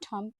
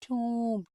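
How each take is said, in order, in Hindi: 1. स्वर की आवाज़ छोटी 'uh' वाली है। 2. स्वर की आवाज़ लंबी 'oo' वाली है। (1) "इट्स नॉट थम" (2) "इट इज टूम"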